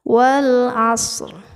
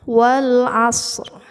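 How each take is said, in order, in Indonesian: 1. Bunyi r di akhir ada tetapi ringan. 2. Bunyi r di akhir ada tetapi ringan.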